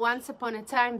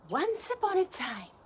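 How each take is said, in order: First: It is said flatly, like everyday talk. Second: It is said with energy, like a storyteller. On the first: The speaker is just talking normally. The speaker calls it wrong. "it's the same tone of me talking" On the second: The speaker is reading a story aloud. The speaker calls it right. "I paused, I put energy, a different tone"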